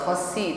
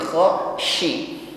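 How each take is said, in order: First: The middle consonant is a narrow s sound. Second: The middle consonant is a spread sh sound. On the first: The speaker calls it wrong. "bukan khasi" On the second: The speaker calls it right. "tafasyi menyebar anginnya"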